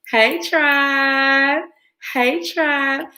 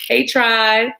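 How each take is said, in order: First: Higher, lilting call with a rising end; playful higher hello to her viewers; sing-song greeting. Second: Said in the usual way. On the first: Real, not acted. Repeats greeting sing-song to audience.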